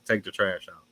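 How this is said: It imitates the speaker's father's voice.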